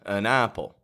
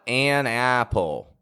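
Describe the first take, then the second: First: The vowel in 'an' is a weak schwa. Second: The vowel in 'an' is full and strong. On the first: The speaker calls it right. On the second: The speaker calls it wrong.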